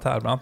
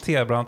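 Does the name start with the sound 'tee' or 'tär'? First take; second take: tär; tee. First: The first syllable sounds like 'tär' with an r. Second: The first syllable sounds like the letter T. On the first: "ibland Tärbrant" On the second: "Du brukar säga att ibland T-brant"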